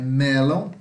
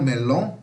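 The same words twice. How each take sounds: First: The stress is on the first syllable. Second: The stress is on the second syllable. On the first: The speaker calls it right. "é melon. A sílaba mais forte é o E" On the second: The speaker calls it wrong. "e não melon, não"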